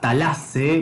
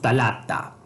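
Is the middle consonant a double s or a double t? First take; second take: double s; double t. First: The middle consonant is a double s sound. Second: The middle consonant is a double t sound. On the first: This is the Homeric (Ionic) form. "aparece como doble sigma" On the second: This is the Attic form. "la doble tau del ático"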